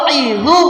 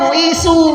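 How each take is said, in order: First: The middle consonant is a voiced 'dz' sound. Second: The middle consonant is a plain 's' sound. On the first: The baby comes out quickly. The speaker calls it right. "Kalau u'idzu insya Allah cepat pagi keluar" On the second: The baby goes back in. The speaker calls it wrong. "Bukan u'isu"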